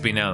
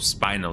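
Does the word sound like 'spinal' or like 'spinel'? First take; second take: spinel; spinal. First: The word is said as 'spinel'. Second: The word is said as 'spinal'. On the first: This is the standard pronunciation. "It is supposed to be pronounced spinel" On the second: This is a personal habit from a game. "I do pronounce it as spinal"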